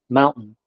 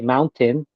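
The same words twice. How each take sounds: First: The middle T is silent. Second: The middle T is clearly pronounced. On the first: This is how West Coast speakers say it. "it's kind of a silent T" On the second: This is how Midwest and East Coast speakers say it. "we don't say mountain"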